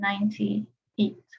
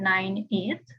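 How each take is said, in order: First: The number is said slowly, parts clearly separated. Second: The number is said quickly, run together. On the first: The speaker calls it right. "if you say it slowly, you can actually hear the number" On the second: The speaker calls it wrong. "It's not"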